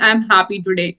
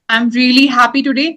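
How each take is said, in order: First: It is said flatly, without expression. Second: It is said with lively, happy expression.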